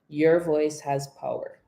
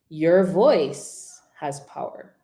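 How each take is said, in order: First: It is said flat, with no word standing out. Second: The pitch rises high on the second word. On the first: "let's just say it monotone" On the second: "raise the pitch on the word voice"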